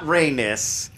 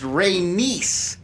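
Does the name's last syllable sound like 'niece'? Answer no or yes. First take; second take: no; yes. First: The last syllable does not sound like 'niece'. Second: The last syllable sounds like 'niece'. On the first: The speaker calls it wrong. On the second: The speaker calls it right. "They are adamant that it is Y-S is niece"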